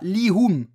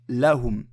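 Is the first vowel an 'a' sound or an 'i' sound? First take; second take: i sound; a sound. First: The first vowel is an 'i' sound. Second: The first vowel is an 'a' sound. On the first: The speaker calls it wrong. "On dit pas Lihum" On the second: The speaker calls it right. "on dit Lahum"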